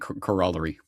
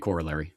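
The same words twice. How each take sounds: First: It is said in a non-North American way. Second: It is said in the usual North American way. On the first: The speaker uses it because they are pretentious. "Only because I'm pretentious, I'll say corollary" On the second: It is how most people on the continent say it. "North Americans generally say corollary"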